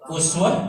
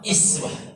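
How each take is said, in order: First: The word begins with an 'u' vowel. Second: The word begins with an 'i' vowel. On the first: Follow the high, demanding practices of the Prophet. "bisa dibaca u, uswah doma" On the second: Start with the light, small practices first. "bisa juga dibaca iswah"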